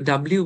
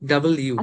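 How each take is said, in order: First: The letter name is run together as one word. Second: The letter name is split into two parts. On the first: The speaker calls it wrong. "আমরা তো ডাব্লিউ বলি একসাথে বলি" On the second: The speaker calls it right. "এটা কিন্তু actual pronunciation ডাবল ইউ।"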